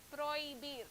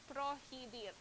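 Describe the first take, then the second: First: The h is silent, with no breath sound. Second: The h is pronounced with an audible breath. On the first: The speaker calls it right. "So it sounds prohibir" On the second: The speaker calls it wrong. "not prohibir"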